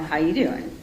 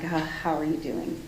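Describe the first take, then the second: First: It is said flirtatiously, like Joey from Friends. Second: It is said gently, with empathy and concern.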